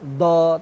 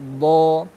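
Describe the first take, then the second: First: The letter is made with the tongue tip. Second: The letter is made with the tongue sides. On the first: The speaker calls it wrong. "bukan do" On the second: The speaker calls it right. "tapi do. Jadi tumbuhan utamanya adalah kanan kiri lidah"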